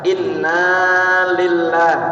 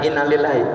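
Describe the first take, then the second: First: The na in inna is drawn out long. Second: The na in inna is said short. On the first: The speaker calls it right. "Jadi naknya panjang" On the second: The speaker calls it wrong. "jangan inna lillahi"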